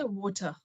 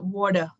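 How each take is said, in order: First: It is said in a British English accent. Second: It is said in an American English accent. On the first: "here they say water" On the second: "American they say water"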